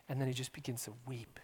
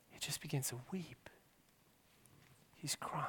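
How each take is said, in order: First: Said in the usual way. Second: Hushed whisper, much softer; whispered grief over weeping. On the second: Real, not acted. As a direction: let it fall to a whisper. Whispered repeat about weeping.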